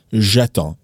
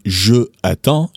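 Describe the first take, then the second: First: J'attends run together as one word; elided form. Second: Je attends with je said in full before the vowel; wrong unelided form. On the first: Teacher showing the correct contracted form. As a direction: glide J'attends into a single smooth word. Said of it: "you would say". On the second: Teacher showing the wrong form to avoid. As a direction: say Je attends slowly, keeping the je separate. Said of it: "you wouldn't say". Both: Shown as a demonstration.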